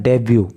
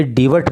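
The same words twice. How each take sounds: First: "डेब्यू" with a silent t; correct pronunciation. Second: "डिवट" with a sounded final t; wrong pronunciation. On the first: Teacher showing students the word, "डेब्यू" ending in yoo, no t. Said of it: "इसका pronunciation है डेब्यू". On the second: Teacher warning students off a misreading, mispronounced "डिवट" with final t. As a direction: say "डिवट", short i and hard t ending. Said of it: "इस word का pronunciation". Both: Shown as a demonstration.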